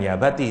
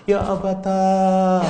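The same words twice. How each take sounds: First: Said in the usual way. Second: "Ya abata" wailed high, loud and slow; mourning cry on "abata"; regretful wail. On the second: Shown as a demonstration. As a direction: stretch the final a of "abata" into a lament. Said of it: "nanti kalau menyesal itu".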